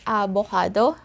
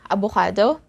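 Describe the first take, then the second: First: It is said with a Tagalog pronunciation. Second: The same.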